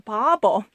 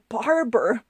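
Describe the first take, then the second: First: The word is said like 'babo'. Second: The word is said like 'barber'. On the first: "he pronounced it as a" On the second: "he didn't really say the barber"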